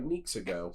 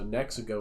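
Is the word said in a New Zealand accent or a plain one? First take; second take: New Zealand; plain. First: The word is said in a New Zealand accent. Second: The word is said in a plain accent. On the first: "people from New Zealand all E's are ne- always do like a long E" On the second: "this camera right here says Nexago"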